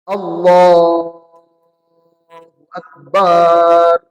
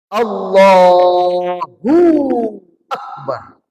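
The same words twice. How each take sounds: First: The final syllable of akbar is lengthened. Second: The middle syllable hu is lengthened. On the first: God is a kind of drum. "Kalau tadi yang pertama ujungnya, akhirnya yang salah" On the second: There is more than one God. "Yang kedua tengahnya"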